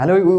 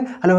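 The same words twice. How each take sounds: First: It is said at a normal, slow pace. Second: It is said very fast, like sped-up playback.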